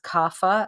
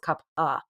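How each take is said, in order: First: The middle consonant sounds like an f. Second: The middle consonant sounds like a p. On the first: The speaker calls it wrong. "a lot of people mispronounce this as kapha" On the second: The speaker calls it right. "It's with a ph, but it's kapha"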